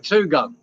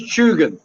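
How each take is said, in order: First: "Two Gun" as TOO-GUN; "Two Gun" like the number two plus gun; Tugun mispronounced as two words. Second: "Chugan" as CHOO-gun; Tugun pronounced correctly. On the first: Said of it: "I used to call it Two Gun". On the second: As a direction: say "Chugan" starting with a ch sound. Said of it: "It is Chugan". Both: Shown as a demonstration.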